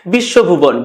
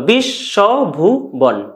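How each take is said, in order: First: Said in the usual way. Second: "বিশ্বভুবন" split slowly into its syllables. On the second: Shown as a demonstration. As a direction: break "বিশ্বভুবন" into slow syllables. ("বিশ্বভুবন" ধীরে দলে দলে ভেঙে উচ্চারণ) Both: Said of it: "দল নির্ণয় করতে পারি".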